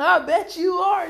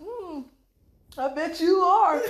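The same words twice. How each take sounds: First: Slow high sly repeat; knowing tease. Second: High, slow sly "I bet you are"; knowing tease. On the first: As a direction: tease again with a grin. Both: Retold or imitated. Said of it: "They be like".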